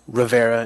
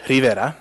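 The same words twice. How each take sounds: First: The name is pronounced with an English accent. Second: The name is pronounced with a Spanish accent. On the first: "if you don't want to try that, um, Rivera is fine" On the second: "if you want to pronounce it in the traditional Spanish"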